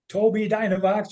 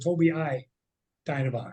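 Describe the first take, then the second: First: The first word is said as two syllables. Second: The first word has an extra third syllable. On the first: "is that pronounced Toby Dynavox" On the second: "or Toby I Dynavox?"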